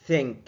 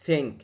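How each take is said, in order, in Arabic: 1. يبدأ بوضع اللسان بين الأسنان. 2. يبدأ بوضع اللسان بين الأسنان.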